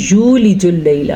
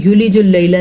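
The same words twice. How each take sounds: First: یولج اللیل with a clear یو and a doubled لّ in اللیل; correct reading. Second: یولج اللیل run together quickly, as most people say it; wrong rushed reading. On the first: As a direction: give the proper یولج اللیل with the doubled لام. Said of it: "یہ ہے یولج اللیل". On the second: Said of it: "یہ یولج اللیل نہیں ہے". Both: Shown as a demonstration.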